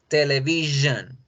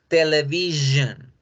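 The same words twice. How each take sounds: The two takes are said the same way.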